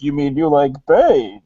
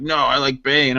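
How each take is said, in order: First: Swooping, theatrical villain voice; Bane voice. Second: Low, barely-there Bane imitation; half-hearted villain voice, no muffling; botched Bane voice. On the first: Retold or imitated. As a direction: show how the masked villain should really sound. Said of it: "he tried to do a Bane voice". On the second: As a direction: imitate someone doing Bane all wrong. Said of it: "he tried to do a Bane voice, but he did it, like, all wrong".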